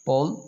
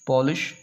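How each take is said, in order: First: "Pol-ish" broken into two parts with a long pause; split into syllables. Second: Said in the usual way. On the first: Shown as a demonstration. Teacher counting syllables for students, "Pol-ish" split in two. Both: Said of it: "this word has two syllables".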